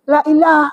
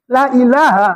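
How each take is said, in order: First: It is said quickly and clipped. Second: It is said slowly and fully. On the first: The speaker calls it wrong. "kalau udah kencang" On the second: The speaker calls it right. "harus begitu dia"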